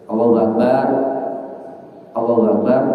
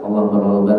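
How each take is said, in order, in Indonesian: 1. Jeda yang jelas memisahkan kedua frasa. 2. Kedua frasa diucapkan bersambung dengan cepat tanpa jeda. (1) "antara Allahu Akbar dan Allahu Akbar ada jeda" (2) "Kalau qomat sunnahnya nyambung cepat"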